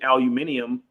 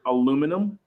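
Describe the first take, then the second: First: It is said with five syllables, British style. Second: It is said with four syllables, American style. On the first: The speaker calls it right. "it's actually aluminium" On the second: The speaker calls it wrong. "in America... like the word aluminum"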